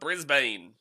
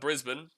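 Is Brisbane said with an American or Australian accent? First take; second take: American; Australian. First: It is said in an American accent. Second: It is said in an Australian accent. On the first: The speaker calls it wrong. "Americans call it Brisbane" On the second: The speaker calls it right. "not Brisbane"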